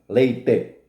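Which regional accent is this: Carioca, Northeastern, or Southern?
Southern. It is said in a southern Brazilian accent. "Paranaenses, gaúchos e catarinenses pronunciam leite, com acento circunflexo"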